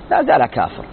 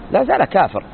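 First: لا زال كافر repeated lower and weightier; stress on لا زال كافر. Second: Said in the usual way. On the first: Shown as a demonstration. Teacher ruling on the silent convert, لا زال كافر said low and firm. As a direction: drop the pitch on لا زال كافر to drive it home.

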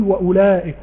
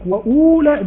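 First: وأولئك said "wa-ulaa'ik", short "u" with the waw silent; correct short vowel. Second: وأولئك said "wa-uuulaa'ik", the silent waw wrongly held, high and loud; wrong long vowel. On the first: Teacher gives students the right reading, وأولئك with a short "u". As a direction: keep the "u" brief in وأولئك, lengthen only the "laa". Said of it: "بقول وأولئك". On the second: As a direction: exaggerate a long "uu" in وأولئك, pitched up. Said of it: "ما أقولش وأولئك". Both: Shown as a demonstration.

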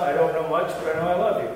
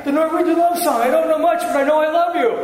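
First: Deadpan recital at ordinary pitch; understated comic line, evenly delivered; low-key Norwegian love song. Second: Loud, very high comic recital; hammed-up Norwegian love song. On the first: Pastor telling his congregation a Norwegian joke, low-key. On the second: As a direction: push the joke up high and loud. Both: Shown as a demonstration. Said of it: "Let's try it again".

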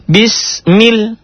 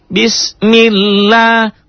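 First: "Bismil" high and cut short; clipped syllable drill. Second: "bismillah" high, chanted, long "la"; slow recitation. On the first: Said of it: "ingat teori samber ke tasdid". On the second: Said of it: "kok lanya panjang". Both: Shown as a demonstration.

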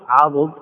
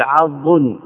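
First: عضد as 'a-dud, two syllables; full unshortened عضد: 'A-dud; damma on the dad. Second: عض as 'ad-dun, the dad closing the first syllable; shortened عض: 'AD-dun; silent dad. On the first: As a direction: say عضد with a short u after the dad. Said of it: "لو كان من باب فعل". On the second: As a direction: say عض with no vowel on the dad. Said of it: "بإسكان الضاد". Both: Shown as a demonstration.

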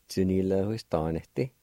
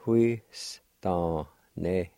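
First: Said in the usual way. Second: Slow drawn out. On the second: Shown as a demonstration. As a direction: stretch huistaneti slowly. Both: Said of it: "Pronounced like this".

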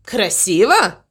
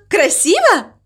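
First: Grumpy, sceptical echo; grumbling. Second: High, eager, hopeful question; delighted question. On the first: Crow doubts the cow's trick, grumbling back. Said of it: "пробурчал ворон". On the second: Mama Mu asks crow for praise, high and delighted. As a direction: ask it high, hoping for praise. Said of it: "Она была в полном восторге". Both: A narrator's reading.

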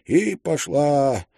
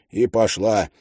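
First: Drawn out. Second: Said in the usual way. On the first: A narrator's reading.

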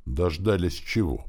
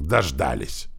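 First: Slow, puzzled question; ask, not yet understanding; curious. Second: Restrained vexed exclamation; annoyed. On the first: Boy asking orc about the trumpet, curious. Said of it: "поинтересовался я". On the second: Orc hearing the trumpet, annoyed. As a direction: complain that the worst has come. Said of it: "досадливо выругался орк". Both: A narrator's reading.

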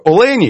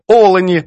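First: Олені stressed on the middle syllable, о-ЛЕ-ні; Russian stress. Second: Олені stressed on the first syllable, О-лені; Ukrainian stress. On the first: Editor's Russian-style example, олені stressed on ЛЕ. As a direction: hit ЛЕ in олені. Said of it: "Це наголос російський". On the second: Editor's Ukrainian correction, олені stressed on initial О. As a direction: open hard on О in олені. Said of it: "По-українському вимовляємо". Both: Shown as a demonstration.

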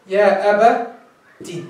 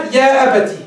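First: يا أبتي very slow, broken before the final "tii"; drawn-out teaching pronunciation of يا أبتي; slow breakdown. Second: Said in the usual way. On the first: Shown as a demonstration. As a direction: split يا أبتي into slow parts, isolating the last syllable. Slow breakdown of the taught form.

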